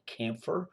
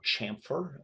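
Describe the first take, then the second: First: "chamfer" with a hard k, like KAM-fer; hard-k pronunciation. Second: "chamfer" with a soft sh or ch start, like SHAM-fer; soft-ch pronunciation. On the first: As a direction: say "chamfer" starting with a k sound. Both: Shown as a demonstration. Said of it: "depending on how you pronounce that word".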